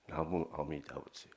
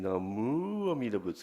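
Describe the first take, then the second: First: The syllable mu is not specially emphasized. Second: The syllable mu is strongly emphasized. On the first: The speaker calls it right. "It's just" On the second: The speaker calls it wrong. "you're putting the emphasis on the mu"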